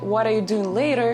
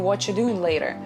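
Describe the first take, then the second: First: The word 'are' is clearly pronounced. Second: The word 'are' is dropped entirely. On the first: "Instead of saying" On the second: "you can say"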